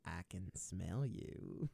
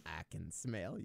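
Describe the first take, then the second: First: Slow, low creepy whisper-toned line. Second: Creepy voice. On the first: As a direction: drag it out slowly like a creepy stranger. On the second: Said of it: "You can do it so much better". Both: Acted.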